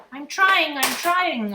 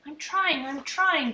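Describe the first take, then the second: First: High, much louder bird echo; bird repeating. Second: Higher, raised holler through the wall; small boy hollering to his brother. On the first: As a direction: squawk it back like a mynah. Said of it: "Uncle Feather repeated". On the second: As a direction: yell back from the next room. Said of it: "Fudge hollered". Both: A narrator's reading.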